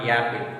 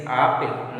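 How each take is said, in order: First: "apple" begun with a y glide, "yapple"; wrong ya sound. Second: Said in the usual way. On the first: Shown as a demonstration. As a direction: put a y in front of "apple". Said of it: "This is wrong". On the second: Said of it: "not apple. This is wrong".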